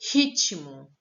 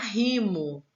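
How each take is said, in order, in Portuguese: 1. A palavra é dita com som de T. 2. A palavra é dita sem som de T. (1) "t, t, é o som do T" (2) "Se eu tirasse o T dessa palavra, ia ficar rimo"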